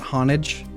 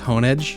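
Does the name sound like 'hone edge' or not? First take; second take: not hone-edge; hone-edge. First: The name does not sound like 'hone edge'. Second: The name sounds like 'hone edge'. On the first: The speaker calls it wrong. "It's not Honage" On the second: The speaker calls it right. "it's Honage"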